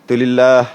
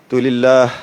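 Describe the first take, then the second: No difference in how they are said.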